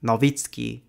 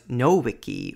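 First: The w is pronounced like English v. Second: The w is pronounced like English w. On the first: The speaker calls it right. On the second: The speaker calls it wrong.

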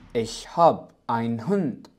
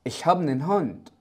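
First: Habe loses its ending and einen is shortened. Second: Einen shrinks to a bare n sound. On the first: It is how Germans usually say it. "تصريف فعل هاب اختفى، فقد أصبحت هاب ich hab ... الآينن ... يجب أن نقوم باختصاره" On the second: It is used in informal conversation. "بطريقة أكثر عامية ... بدلا من einen أصبحت نن نن"

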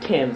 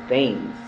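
First: It is pronounced the British way. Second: It is pronounced as it is spelled. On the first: This is the name's correct form. The speaker calls it right. "It's supposed to be like England" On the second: This is how most locals say it. The speaker calls it wrong. "They pronounce it the same way it's written"

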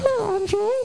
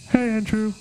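First: The voice sounds like a baby lizard. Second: The voice sounds like Kermit the Frog.

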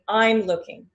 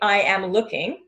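First: The verb is contracted and joined to the subject. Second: The verb is said in full as a separate word. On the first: "It's faster and it's easier" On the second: "you could say"

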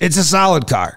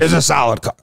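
First: It is said in a plain, ordinary voice. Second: It is said in a raspy, imitated voice.

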